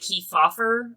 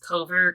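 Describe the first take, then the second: First: The name is said in a longer, fuller form. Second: The name is said in a short, clipped form. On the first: The speaker calls it right. "I'm pretty sure it's pronounced like Kefauver or something" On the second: The speaker calls it wrong. "I'm pretty sure I pronounced that wrong"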